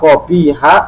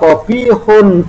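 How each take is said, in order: First: The word ends with a plain 'a' sound. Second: The word ends with the sound 'un'. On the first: The adjective follows the indeclinable surface form. "kobiha memandang dohirnya di mana rojula di sini dimabnikan" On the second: The adjective follows the nominative subject status. "bisa dibaca kobihun ya, kobihun memandang ibtidaknya menjadi rofa"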